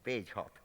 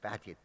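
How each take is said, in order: First: The name is said in a non-English way. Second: The name is said the English way. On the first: This is how the speaker personally says it. "I say him, call him Bagehot" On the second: This is how English people say it. "the English seem to call it something like Badget"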